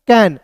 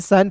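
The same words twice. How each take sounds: First: कैन starting on k, not s; कैन read out clearly as k-ai-n; correct reading of CAN. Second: CAN misread as सैन, s instead of k. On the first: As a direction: say कैन with a hard k sound. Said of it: "सी का उच्चारण स के रूप में नहीं करेंगे". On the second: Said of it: "बहुत लोग इसे सैन पढ़ लेते हैं, नहीं". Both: Shown as a demonstration.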